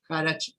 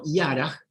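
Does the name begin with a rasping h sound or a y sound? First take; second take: h sound; y sound. First: The name begins with a rasping h sound. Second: The name begins with a y sound. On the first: It is read as the spelling suggests locally. "lo pronuncio como se escribe" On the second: It is said as in the person's country of origin. "ahora lo pronuncio como lo pronunciarían en su país de origen"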